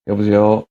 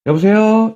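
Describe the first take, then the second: First: 여보세요 pitched low and level; low, subdued-pitch phone pickup; low-toned hello. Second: 여보세요 pitched high and lifted; high, forward phone pickup; high-toned hello. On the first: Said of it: "상대방이 톤이 낮으면". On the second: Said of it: "상대방이 톤이 높으면". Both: Shown as a demonstration.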